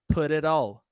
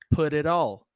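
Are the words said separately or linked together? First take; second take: linked; linked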